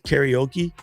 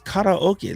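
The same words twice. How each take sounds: First: The word begins like the word carry. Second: The word begins like the start of karate. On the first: The speaker calls it wrong. "half of our country still says karaoke" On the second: The speaker calls it right. "like karate"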